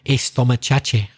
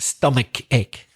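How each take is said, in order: First: An extra 'e' vowel is added before the phrase. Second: The phrase begins directly with the 's' sound. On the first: The speaker calls it wrong. "some Spanish speakers say estomachache" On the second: The speaker calls it right. "it's pronounced stomach ache"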